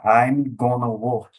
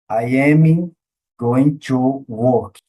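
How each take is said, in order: First: The words are contracted and run together. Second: Every word is said fully and separately. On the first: It sounds like everyday native speech. The speaker calls it right. "Ele vai falar I'm gonna work" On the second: It sounds formal, like classroom speech. The speaker calls it wrong. "Você nunca vai ouvir o nativo falando uma conversação"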